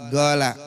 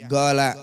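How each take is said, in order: Both takes have the same delivery.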